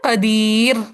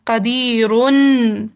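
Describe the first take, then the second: First: The word ends on 'r' with no 'un'. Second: The word ends with an audible 'un' sound. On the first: The reader stops on the word. "अगर मैं इसी कदीरुन पे वक्फ कर दूं" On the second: The reading continues without stopping on the word. "तो ये हमने इसका नून पढ़ा"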